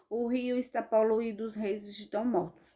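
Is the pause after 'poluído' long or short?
short. There is only a brief pause after 'poluído'. The speaker calls it wrong. "Eu não posso ler assim"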